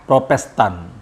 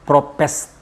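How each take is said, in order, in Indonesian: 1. Kata itu diucapkan lengkap dengan setiap suku katanya. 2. Kata itu dipotong menjadi bentuk yang pendek dan tidak jelas.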